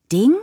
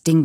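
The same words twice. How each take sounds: First: Ding? rising in disbelief; incredulous. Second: Said in the usual way. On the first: Acted. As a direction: question the word Ding sharply. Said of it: "fragte ich nach". (ungläubiges Ding? mit steigendem Ton)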